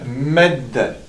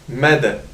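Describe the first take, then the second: First: The d sound is held long and doubled. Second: The d sound is short and single. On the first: "Tandis qu'ici on va dire" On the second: "si on enlève la shadda, donc de cette manière-là, ici on va dire"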